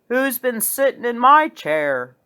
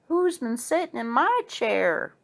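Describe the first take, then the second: First: It is said in a deep, big bear voice. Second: It is said in a medium-sized bear voice.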